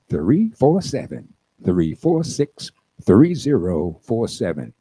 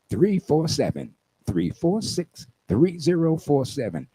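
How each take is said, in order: First: The number is said slowly. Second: The number is said at normal speed.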